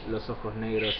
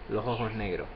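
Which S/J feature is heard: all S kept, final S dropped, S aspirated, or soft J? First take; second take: all S kept; soft J. First: Every S is fully pronounced. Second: The J sounds like an English H. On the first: "instead of" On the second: "Caribbean or Central American, where also the J is pronounced like an English H"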